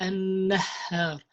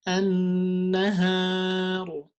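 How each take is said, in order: First: The h sound is pushed out forcefully. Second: The h sound is soft and light. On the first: The speaker calls it wrong. "Don't stress that" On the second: The speaker calls it right.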